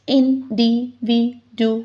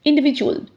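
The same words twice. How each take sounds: First: 'individual.' said slowly as in-di-vi-du-al; slowly split into syllables. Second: Said in the usual way. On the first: Shown as a demonstration. Teacher counting syllables for students, slowly sounding out 'individual.'. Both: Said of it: "five vowel sounds".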